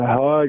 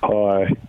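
First: It is said with more energy. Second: It is said with little energy.

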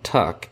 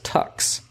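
First: The word ends in a plain k sound. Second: The word ends in a ks sound. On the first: The speaker is an insider. The speaker calls it right. "the tuxedo is properly known as a tuck" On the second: The speaker is not informed. The speaker calls it wrong. "or are otherwise not informed, pronounce the noun tuck as tucks"

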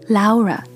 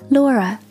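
First: The name has a German pronunciation. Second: The name has an English pronunciation. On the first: "德语的发音会把这个名字念成 Laura" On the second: "在美式和英式英语里，她的发音会是 Laura"

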